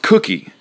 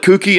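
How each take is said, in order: First: It sounds like the food cookie. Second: It sounds like the word kooky. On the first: The speaker calls it right. "it's pronounced cookie, cookie, like the cookie that you eat" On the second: The speaker calls it wrong. "I call it kooky, and I apologize. It's not kooky"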